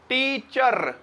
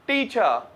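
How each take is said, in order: First: The final r sound is clearly pronounced. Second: The final r sound is left silent. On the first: The speaker calls it wrong. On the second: The speaker calls it right.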